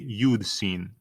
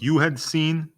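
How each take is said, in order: First: The word had is shortened onto you. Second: The word had is said in full. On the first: "we can say you'd seen" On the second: "Instead of you had seen"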